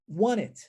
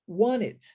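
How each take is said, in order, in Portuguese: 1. O som do T é omitido, as palavras se misturam. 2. O som do T é omitido, as palavras se misturam.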